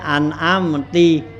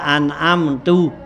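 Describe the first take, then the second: First: The word ends with an i vowel. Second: The word ends with a u vowel. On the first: "kasrohnya an'amti ... itu salah" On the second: "Nah itu salah"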